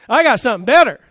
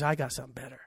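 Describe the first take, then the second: First: High, loud triumphant proclamation; booming divine answer. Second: Low, soft, understated aside as God; quiet divine answer. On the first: Preacher repeats God's answer to immorality, loud and triumphant. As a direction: punch it out loud, voice raised high on it. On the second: Preacher voices God answering the upsurge of immorality, low and quiet. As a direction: drop it low and soft, like a secret. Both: Acted.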